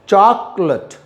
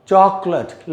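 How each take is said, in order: The two takes are said the same way.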